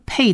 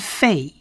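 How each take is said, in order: First: It starts with a p sound. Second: It starts with an f sound. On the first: The letter has a dot in the middle. "它其实不是发p pei 的音" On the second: The letter has no dot in the middle. "而是发成fei"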